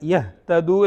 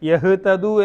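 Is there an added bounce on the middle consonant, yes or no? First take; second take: no; yes. First: The middle consonant is closed without an echoing bounce. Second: The middle consonant is released with an echoing bounce. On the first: The speaker calls it right. "കൽക്കലയില്ല. യഹ്തദു എന്ന് ഓതണം" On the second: The speaker calls it wrong. "യഹ്തദു എന്ന് ഓതരുത്"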